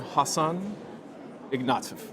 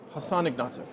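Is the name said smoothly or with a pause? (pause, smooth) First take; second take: pause; smooth. First: The name is said with a pause inside. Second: The name is said smoothly without a pause.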